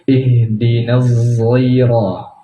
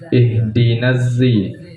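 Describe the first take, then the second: First: The word begins with a thickened z sound. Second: The word begins with a plain z sound. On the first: "zainya ditebalkan" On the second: "di kiroat lain ada dengan zai"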